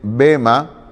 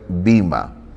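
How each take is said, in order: First: The first vowel sounds like 'e'. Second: The first vowel sounds like 'i'. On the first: "Algunos a veces dicen bema" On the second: "me gusta pronunciar bima"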